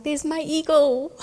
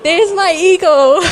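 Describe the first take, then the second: First: Slow, higher hushed wonder at eagle; awed murmur. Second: Slow, high, loud and laughing; joyful laughing. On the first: Mother recognising God's eagle, hushed and awed. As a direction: breathe it in amazement. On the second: Mother recognising God's eagle, laughing loudly. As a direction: burst out with delighted laughter. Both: Retold or imitated.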